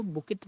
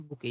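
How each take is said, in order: First: बुकेट with the final t sounded; wrong pronunciation. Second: बुके ending on an open vowel, no t; silent t. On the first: Teacher warning learners off a misreading, बुकेट with a sounded t. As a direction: say बुकेट ending on an audible t. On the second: Teacher showing learners how to read it, बुके with silent t. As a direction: say बुके with the final t left silent. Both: Shown as a demonstration. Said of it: "यहाँ पर टी silent होता है".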